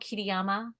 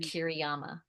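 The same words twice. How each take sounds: First: The R in the name is rolled. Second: The R in the name is flat. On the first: "Let me say my name aloud" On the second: "I flattened my name. I did not roll the R"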